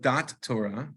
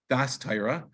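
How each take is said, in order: First: The first word ends with a t sound. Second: The first word ends with an s sound. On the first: The speaker calls it wrong. "which is really not the way to pronounce it" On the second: The speaker calls it right. "It would be Das Torah"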